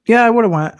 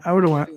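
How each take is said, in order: First: Loud, high burst of agreement; pitched-up eager yeah; emphatic agreement. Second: Said in the usual way. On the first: Real, not acted. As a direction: blurt out "I would've went" with full force. Emphatic agreement, then repeated.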